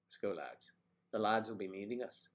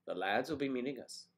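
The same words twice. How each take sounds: First: Lightly put-on Irish lilt; Irish accent attempt. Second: Irish lilt rising on the phrase; Irish accent attempt. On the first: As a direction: try an Irish accent on lads. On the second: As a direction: have another go at Irish. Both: Shown as a demonstration. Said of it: "Ireland, I believe it's lads".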